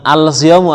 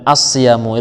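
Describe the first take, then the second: First: The l is pronounced before the s sound. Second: The l merges into the following s sound. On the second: "langsung diidghamkan"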